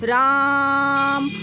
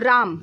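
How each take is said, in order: First: The vowel is stretched out very long. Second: The vowel is held for a normal length. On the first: "इसी को लंबा खींच के बोले राम" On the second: "तो राम फ्लुत नहीं है"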